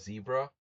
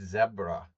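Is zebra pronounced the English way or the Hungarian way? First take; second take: English; Hungarian. First: Zebra is said with an English pronunciation. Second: Zebra is said with a Hungarian pronunciation. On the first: It does not rhyme with the name. "In English it sounds stupid" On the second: It rhymes with the name. "But Hungarian, it's it's zebra"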